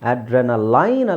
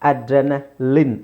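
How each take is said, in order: First: The last syllable has an 'eye' sound. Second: The last syllable has a short 'i' sound. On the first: The speaker calls it wrong. "ಅಡ್ರೆನಲೈನ್ ಅಲ್ಲ" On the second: The speaker calls it right. "ಲಿನ್"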